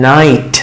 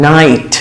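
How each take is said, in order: The two takes are said the same way.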